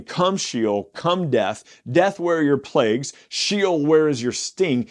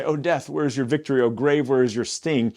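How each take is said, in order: First: Summoning call, louder and higher; inviting. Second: Mock triumphant boast. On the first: God calling death to judge his people, summoning. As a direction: beckon death to come. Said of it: "He is inviting them". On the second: Preacher mocking how readers boast. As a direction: gloat over death like a victor. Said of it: "we kind of say it as, like, we're boasting". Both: Shown as a demonstration.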